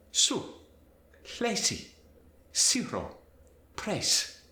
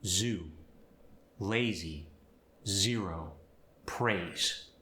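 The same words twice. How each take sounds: First: Spanish accent. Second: Said in the usual way. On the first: Shown as a demonstration. Teacher demonstrating Z to S, Spanish accent. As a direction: hiss every Z as an S. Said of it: "Z sound is gonna change to the S". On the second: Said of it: "For instance".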